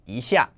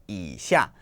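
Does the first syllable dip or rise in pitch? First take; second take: rise; dip. First: The first syllable has a rising second tone. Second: The first syllable has a dipping third tone. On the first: It means a little. "the one that you want to use is the second tone" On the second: It means below. "This one is a third tone"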